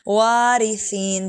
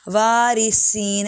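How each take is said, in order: First: The middle consonant is a soft th sound. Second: The middle consonant is a whistling s sound. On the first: The speaker calls it right. "सा बारीक है, सीन की आवाज़ ना है" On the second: The speaker calls it wrong. "ऐसे नहीं पढ़ना"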